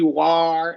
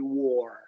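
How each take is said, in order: First: The vowel is not the 'or' sound. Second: The vowel is the 'or' sound. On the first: The speaker calls it wrong. "it's not going to be war" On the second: The speaker calls it right. "it's going to be that O R combination"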